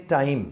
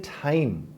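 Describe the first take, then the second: First: ٹائم with a plain, unaspirated T; standard pronunciation. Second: ٹائم with a breath puff after the T, "thaim"; native-accent pronunciation. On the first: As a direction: say ٹائم with no puff on the T. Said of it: "پوری دنیا مانتی ہے کہ ہاں یہ ٹھیک ہے". (ٹائم سادہ ٹ کے ساتھ، بغیر ہوا کے) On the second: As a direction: aspirate the first sound of ٹائم. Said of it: "pronunciation بھی ٹھیک تھی اور ایکسنٹ بھی ٹھیک تھا". (ٹائم کو "ٹھائم" کی طرح ہوا کے ساتھ) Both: Shown as a demonstration.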